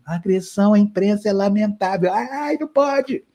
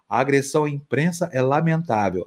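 First: High, thin, meek little voice; thin reedy voice. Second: Said in the usual way. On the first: Retold or imitated. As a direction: shrink into a timid squeak. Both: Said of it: "E aí ele fala fininho".

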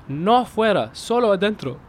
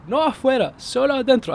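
First: Raised, anxious insisting; nervous pleading. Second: Much higher, desperate repeating; frantic pleading. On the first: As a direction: plead your innocence nervously. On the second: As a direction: insist again in rising panic. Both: Retold or imitated. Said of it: "I said".

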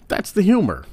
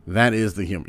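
First: "humor" jumps much higher and louder; emphatic. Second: Said in the usual way. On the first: Real, not acted. Comedian insists on his point with a high, loud "humor". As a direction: stress "that's the humor" up high.

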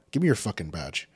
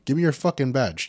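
First: Said in the usual way. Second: Higher and louder, fast and furious; angry shout. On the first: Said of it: "first take before shouting version". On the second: Retold or imitated. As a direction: bark for the badge at full volume. Repeated demand, shouted.

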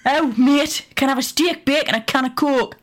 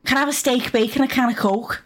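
First: Higher-pitched second go at a Geordie voice; a second Geordie attempt that still misses the mark; Geordie accent. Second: A Geordie attempt that slides into Scouse; a half-hearted Geordie accent that lands somewhere else; failed Geordie accent. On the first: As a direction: try the Geordie accent again, a bit higher. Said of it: "it's terrible". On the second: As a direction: try for Geordie and miss. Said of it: "that's just not Geordie". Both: Shown as a demonstration.

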